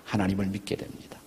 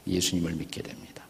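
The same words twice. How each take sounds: First: Said in the usual way. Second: Hushed whisper on 예수님을 with a falling end. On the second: Shown as a demonstration. Preacher hushing the name 예수님을 to the congregation, whispered. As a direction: breathe out 예수님을 믿게 됩니다 as a soft whisper. Repeating the confession of faith.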